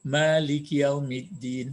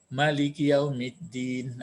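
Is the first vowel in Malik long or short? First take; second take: long; short. First: The first vowel of Malik is held long. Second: The first vowel of Malik is kept short. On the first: "kalau di, dipanjangkan" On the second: "tapi kalau dipendekkan"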